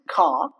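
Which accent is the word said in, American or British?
British. The final R is silent, British style. "It's obviously a British British accent"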